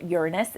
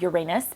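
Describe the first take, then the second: First: The word's ending does not sound like 'anus'. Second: The word's ending sounds like 'anus'. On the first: It avoids sounding like a rude word. "people call it Uranus" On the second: It sounds like a rude word. "otherwise it sounds like anus"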